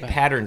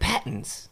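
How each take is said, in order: First: It is said in a plain American accent. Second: It is said in an imitated British accent. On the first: "He doesn't even say patterns" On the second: "He's like, patterns"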